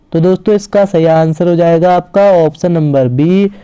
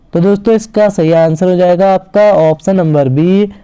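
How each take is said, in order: Both takes have the same delivery.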